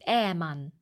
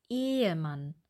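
First: The first e vowel is short. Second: The first e vowel is long. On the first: The speaker calls it wrong. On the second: The speaker calls it right.

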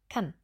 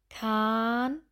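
First: The a vowel is clipped short. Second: The a vowel is drawn out long. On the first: The speaker calls it right. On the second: The speaker calls it wrong.

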